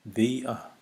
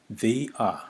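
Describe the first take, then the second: No difference in how they are said.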